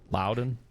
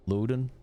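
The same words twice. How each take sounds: First: Unsure second guess at "Loudon" as "Lou-don"; second name try. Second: "Loudon" said as "Loo-don", with a questioning rise; trying out "Loudon" with a long oo like "loo"; checking the name "Loudon" aloud as "Loo-don"; unsure name try. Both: Shown as a demonstration.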